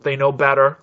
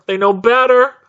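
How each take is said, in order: First: Said in the usual way. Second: Higher, louder, insistent outburst; exasperated repeat. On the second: Real, not acted. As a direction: hammer it home, high and loud.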